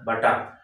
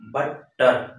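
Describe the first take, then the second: First: Said in the usual way. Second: বাটার broken into বা and টার; teacher's two-beat demo of বাটার; syllable by syllable. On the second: Shown as a demonstration. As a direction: pause inside বাটার between its syllables. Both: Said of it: "দুইটা syllable থাকবে".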